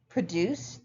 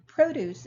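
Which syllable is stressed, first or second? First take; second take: second; first. First: The stress is on the second syllable. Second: The stress is on the first syllable. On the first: It is the verb meaning to make. "the verb, is stressed on what we call the second syllable" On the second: It is the noun meaning farm goods. "the noun produce is stressed on the first"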